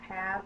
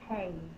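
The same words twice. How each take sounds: First: The vowel is a short 'a' sound. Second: The vowel is a long 'a' sound. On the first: The speaker calls it right. "pronounced have" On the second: The speaker calls it wrong. "not have"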